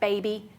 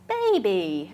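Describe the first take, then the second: First: The word is said at a normal length. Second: The word is said slowly and drawn out. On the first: This is how one would say it to an adult. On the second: This is how one would say it to a baby.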